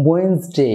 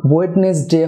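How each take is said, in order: First: "ওয়েডনেসডে" reduced to wens-day; silent-d Wednesday. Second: "ওয়েডনেসডে" in full, wed-nes-day; spelled-out Wednesday. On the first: Teacher gives the correction, "ওয়েডনেসডে" as wens-day. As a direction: drop d and middle e in "ওয়েডনেসডে", WENZ-day. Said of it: "ই উচ্চারণ হবে না". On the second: Teacher recalls the error for viewers, "ওয়েডনেসডে" as wed-nes-day. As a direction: keep first d and middle e in "ওয়েডনেসডে". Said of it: "প্রথম ডি এবং". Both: Shown as a demonstration.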